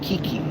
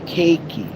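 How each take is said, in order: First: The first syllable sounds like 'key'. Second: The first syllable sounds like 'cake'. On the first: This is a girl's name. The speaker calls it wrong. "everyone gets it wrong" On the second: This is how the name is really said. The speaker calls it right. "Cake that you eat and a key that you turn"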